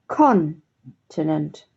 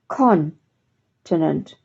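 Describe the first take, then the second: No difference in how they are said.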